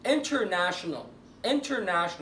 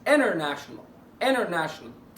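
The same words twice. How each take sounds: First: "international" with the first T pronounced; standard English. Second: "international" as "innernational"; silent T. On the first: Teacher modelling standard English, T sounded. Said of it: "انا كده هحطها ستاندرد انجلش". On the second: Teacher applying the rule for students, silent T. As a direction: slowly say "international" without its first T. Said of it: "اطبق قاعده السايلنت تي عليها". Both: Shown as a demonstration.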